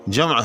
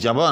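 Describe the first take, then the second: First: The m closes the first, long syllable. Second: A vowel follows the m, making two light syllables. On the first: The speaker calls it right. "बल्कि जमा है" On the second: The speaker calls it wrong. "ये जमा नहीं है"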